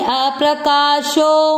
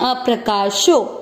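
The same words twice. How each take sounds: First: The marked vowel is held long. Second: The marked vowel is said short. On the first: "एक हम बोलेंगे" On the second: "एक हम बोलते हैं"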